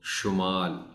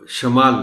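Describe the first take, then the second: First: The first syllable has a clear 'u' vowel. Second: The first syllable has a short 'a' vowel. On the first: The speaker calls it right. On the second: The speaker calls it wrong.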